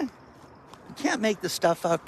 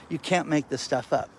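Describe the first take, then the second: First: CAN'T stretched out high and slow; emphatic disbelief. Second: Said in the usual way. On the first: Shown as a demonstration. Telling viewers about the car thief, emphatic high slow disbelief. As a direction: lean hard on "can't", drawn out in amazement.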